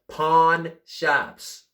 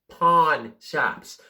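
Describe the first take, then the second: First: The words are said crisply, with clear enunciation. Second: The same.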